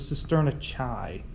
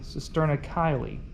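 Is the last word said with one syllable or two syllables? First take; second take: one syllable; two syllables. First: The last word is one syllable, like 'kai'. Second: The last word is two syllables, like 'kylie'. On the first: The speaker calls it wrong. "I learned this as the cisterna chi" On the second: The speaker calls it right. "it's supposed to be Kylie"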